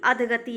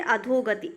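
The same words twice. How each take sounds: First: अधगति without the o; wrong form अधगति. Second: अधोगति with a long dho; correct form अधोगति. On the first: Teacher rejects the form, no o in अधगति. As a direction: say अधगति as adh-ga-ti. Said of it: "नहीं". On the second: Teacher answers own question, long o in अधोगति. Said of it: "अधगति नहीं". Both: Shown as a demonstration.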